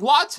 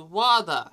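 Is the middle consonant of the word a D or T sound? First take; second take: T; D. First: The middle consonant is a clear T sound. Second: The middle consonant is a soft D sound. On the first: "instead of saying water" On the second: "with like a D sound"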